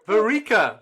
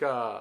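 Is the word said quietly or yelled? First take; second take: yelled; quietly. First: It is yelled loudly. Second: It is said quietly.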